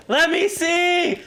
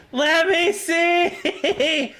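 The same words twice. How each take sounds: First: Frantic real plea; pleading cry. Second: Stretched-out whine of frustration; drawn-out wail. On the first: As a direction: beg the game to let you see. Struggling during ghost hunt. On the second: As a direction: drag every word out in despair. Same plea, dragged out. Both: Real, not acted.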